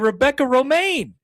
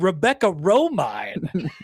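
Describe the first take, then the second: First: The surname sounds like romaine lettuce. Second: The surname does not sound like romaine lettuce. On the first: The speaker calls it right. "like the lettuce" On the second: The speaker calls it wrong. "you said Rebecca Romine"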